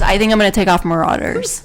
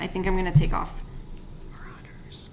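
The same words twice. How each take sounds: First: It is said loudly. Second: It is said quietly.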